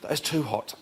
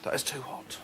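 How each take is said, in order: First: It is said in panicked, screaming pain. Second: It is said calmly, with a contented sigh.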